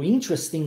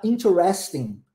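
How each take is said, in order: First: "interesting" shortened, IN stressed, as "IN-tres-ting"; American pronunciation. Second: "interesting" with full middle syllables, "in-te-RES-ting"; British variant. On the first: Teacher contrasting American with British English, "interesting" said "IN-tres-ting". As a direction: squeeze "interesting" into three syllables, American style. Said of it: "existe uma diferençazinha aqui do inglês britânico pro inglês americano".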